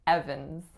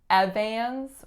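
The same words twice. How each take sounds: First: The second vowel is a plain schwa. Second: The second vowel is nasalized. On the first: The speaker calls it right. "It is a schwa. we're saying Evans" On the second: The speaker calls it wrong. "we're not saying Evans"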